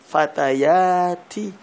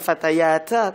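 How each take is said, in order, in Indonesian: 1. Kata ini berakhir dengan vokal 'i'. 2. Kata ini berakhir dengan vokal 'a'. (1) "tak, fatayati" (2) "bukan fatayata"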